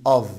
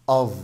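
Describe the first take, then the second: The two takes are said the same way.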